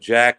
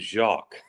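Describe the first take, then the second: First: The name is said with an English pronunciation. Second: The name is said with a French pronunciation. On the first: "Named them Jack and Henry" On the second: "my broken French pronunciation"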